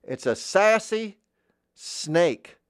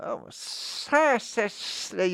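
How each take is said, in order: First: High, loud sassy voice, slowly stretched; sassy character voice. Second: Sassy snake with long hissed S's; hissing snake. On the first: Asked to voice a sassy snake, high sass. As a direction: pitch SASSY way up and draw it out. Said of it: "Another voice I like to do". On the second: Voice teacher adding S's to a snake, sassy hiss. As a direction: draw every S out, high and very slow. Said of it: "put some S's in there like that". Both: Shown as a demonstration.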